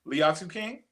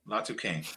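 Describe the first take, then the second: First: An 'ee' sound is pronounced after the L. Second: No 'ee' sound is pronounced after the L. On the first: The speaker calls it wrong. "Close enough" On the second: The speaker calls it right. "The I is silent"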